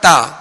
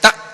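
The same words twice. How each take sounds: First: The syllable is said smoothly without a jerk. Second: The syllable is cut off with a sharp jerk. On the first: The speaker calls it right. "बल्कि ता जबर ता" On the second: The speaker calls it wrong. "इसमें झटका भी ना हो, जैसे ता इस तरह भी नहीं पढ़ेंगे"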